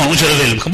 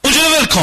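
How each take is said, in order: First: The husband just goes along with it; meek compliance. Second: High, loud command to the husband; اونجا رو ول کن barked high at her husband; bossy order. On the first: Husband meekly obeys. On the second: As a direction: order him to drop it, higher and louder. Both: Acted.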